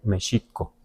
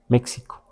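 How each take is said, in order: First: The x is an sh sound. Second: The x is a ks sound. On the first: This is closest to the original Nahuatl. "le damos un sonido de sh, no de X" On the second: This follows the letter's usual value. "Si le diéramos un sonido de X, diríamos México"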